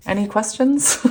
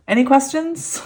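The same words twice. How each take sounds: First: Said in the usual way. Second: "Any" much higher, teasing rise; mock-innocent question after a giggle; playful tease. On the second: Real, not acted. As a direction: tease the viewers with a grin.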